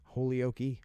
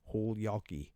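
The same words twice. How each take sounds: First: Holyoke as HOLE-ee-OH-kee; trying out pronunciation. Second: Holyoke as HOLD-YAH-kee, falling; trying out pronunciation. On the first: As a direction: say Holyoke in four beats, long O, final "kee". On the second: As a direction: say Holyoke in three beats with "yah" in the middle. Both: Shown as a demonstration. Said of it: "It's gotta be one of those".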